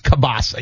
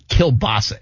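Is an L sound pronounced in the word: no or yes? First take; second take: no; yes. First: The L sound is left out of the word. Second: The L sound is pronounced in the word. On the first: The speaker calls it right. "You don't say the L" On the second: The speaker calls it wrong. "It's not kielbasa"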